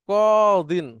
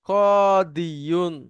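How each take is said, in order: First: The ya sound is dropped, ending in '-in'. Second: The word ends with a full '-iyun' syllable. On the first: This is the simplified form actually used. "ইয়াকে অমিট করে এখানে জের দিয়ে দেওয়া" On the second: This is the original underlying form. "আমরা যদি মূল শব্দ ধরি"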